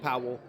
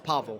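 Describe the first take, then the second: First: The name sounds like the English name Powell. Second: The name is said with Polish pronunciation, Pavel. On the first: The speaker calls it wrong. "I keep saying Powell" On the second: The speaker calls it right. "It's Pavel. Polish pronunciations"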